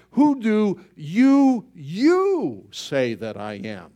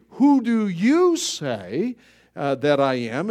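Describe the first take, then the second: First: YOU hit high and loud, very slow; driving it home. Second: "Who do you say" sözünde "you" kelimesini uzatıp vurgula; emphatic question. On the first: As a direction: hammer the word you, slowly. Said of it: "he's really driving the point home". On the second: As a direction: stress on YOU, drawn out slowly. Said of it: "written in the Greek in emphatic". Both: Acted.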